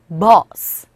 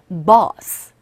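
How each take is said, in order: The two takes are said the same way.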